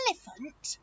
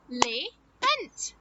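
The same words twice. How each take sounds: First: Said in the usual way. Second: "Elephant" slowly split into el-e-phant; syllable by syllable. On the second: Shown as a demonstration. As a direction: say "Elephant" in three separate beats. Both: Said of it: "Elephant has just three syllables".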